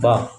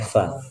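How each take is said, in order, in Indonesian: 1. Diawali bunyi p. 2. Diawali bunyi f. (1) "jangan fa nya Indonesia" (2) "tapi fa"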